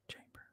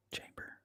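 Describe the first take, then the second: First: The echo dying away, near silent; fading echo. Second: Faint echoing repeat. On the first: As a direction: let it vanish like a distant echo. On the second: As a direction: fade it out like an echo. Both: Pretend. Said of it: "That was supposed to be an echo".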